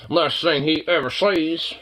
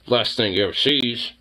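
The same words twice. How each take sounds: First: Slow, dramatic "Last thing he ever sees" with weight on "ever"; ominous repeat. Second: Said in the usual way. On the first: Shown as a demonstration. Joking about the dog, now in slow mock-ominous narration. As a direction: drag it out like a movie trailer.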